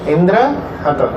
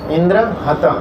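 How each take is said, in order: Both takes have the same delivery.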